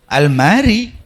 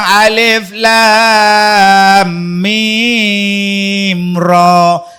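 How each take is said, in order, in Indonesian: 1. Hurufnya disambung jadi satu kata. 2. Setiap huruf disebut terpisah sebagai kata sendiri. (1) "Dia belasahnya Al-Mari" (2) "Bukan alif, bukan Al-Mari bang"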